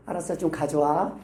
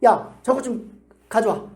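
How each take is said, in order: First: Lower, gentler retold request; a touch softer, placating; nicer request. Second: Mildly bossy, drawn-out order; retold brusque fatherly demand; firm raised voice. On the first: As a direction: give in and ask nicely. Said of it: "예쁘게 말해주세요". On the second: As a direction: bark it lightly, slowly. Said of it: "큰 목소리로".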